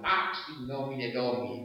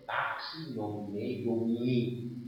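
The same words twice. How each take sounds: First: The Latin is said with ordinary, non-French pronunciation. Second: The Latin is said with French pronunciation. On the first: "diríamos" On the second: "se tiene que considerar la pronunciación francesa"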